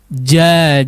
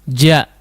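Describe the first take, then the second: First: The vowel is lengthened, held two beats. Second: The vowel is short, held one beat. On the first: "kalau dua harokat itu seolah kita mengucapkan dua huruf tersebut" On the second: "Kalau satu harakat itu tidak memiliki mad ya"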